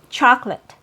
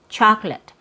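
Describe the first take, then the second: First: The word is said with two syllables. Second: The word is said with two syllables.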